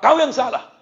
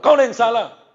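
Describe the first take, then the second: First: Much higher, louder scolding snap; mock mother yelling at her son. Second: High, loud scolding repeat; mock angry mother. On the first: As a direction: scold the child sharply. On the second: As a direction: snap at the child again. Mother scolding her child.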